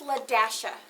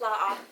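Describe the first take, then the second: First: The word 'dash' is said in the middle. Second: A glottal catch separates the two syllables. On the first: The speaker calls it right. "It is Ladasha" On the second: The speaker calls it wrong. "Would you say La'a?"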